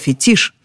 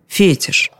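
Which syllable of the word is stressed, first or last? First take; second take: last; first. First: The stress is on the last syllable. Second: The stress is on the first syllable. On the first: The speaker calls it right. "а там последний слог всегда ударный. ... Оставим это слово таким же, каким оно к нам пришло" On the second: The speaker calls it wrong. "Так почему нам говорить «фетиш»?"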